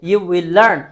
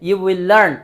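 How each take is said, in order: No difference in how they are said.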